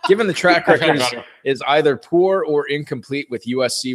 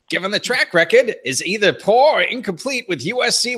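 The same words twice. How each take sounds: First: It is read in a plain normal voice. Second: It is read in an angry put-on voice. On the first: "I'm not going to do it" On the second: "the angry Costanza voice"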